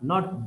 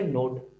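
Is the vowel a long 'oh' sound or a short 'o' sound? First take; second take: short o; long oh. First: The vowel is a short 'o' sound. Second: The vowel is a long 'oh' sound. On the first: The speaker calls it right. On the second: The speaker calls it wrong. "don't say note"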